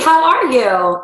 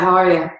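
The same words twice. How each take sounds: First: It is said warmly, with a smile. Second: It is said flatly, without a smile. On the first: The speaker calls it right. "You can hear my smile in my voice" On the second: The speaker calls it wrong. "You can tell I'm not smiling"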